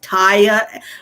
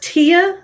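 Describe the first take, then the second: First: The first vowel sounds like 'tie'. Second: The first vowel sounds like 'tea'. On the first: The speaker calls it wrong. "I was pronounced Taya" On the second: The speaker calls it right. "it rhymes with Chia Pet"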